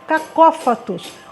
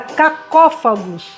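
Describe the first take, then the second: First: The word is said with a T sound near the end. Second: The word is said with a G sound near the end. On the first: The speaker calls it right. "eu vi que era cacófatos" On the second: The speaker calls it wrong. "com G no final"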